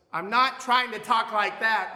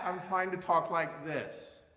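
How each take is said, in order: First: Loud, higher, pushed strident voice; strident shouting. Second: Slow, full, open projected tone at normal level. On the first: Teacher showing students the wrong, strident loud sound. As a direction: force it out harshly as the wrong example. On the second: Teacher showing students the right projected open voice. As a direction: let the sound expand without pushing. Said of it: "That's a very different projection". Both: Shown as a demonstration.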